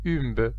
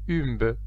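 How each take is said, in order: First: The name is pronounced with French sounds. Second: The same.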